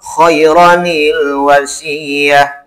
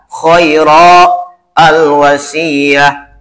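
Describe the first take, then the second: First: The words are joined with an added nil sound. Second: The words are said separately, with a stop between. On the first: "Kalau diwasol" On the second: "Kalau dipisah"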